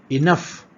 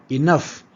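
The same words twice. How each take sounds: No difference in how they are said.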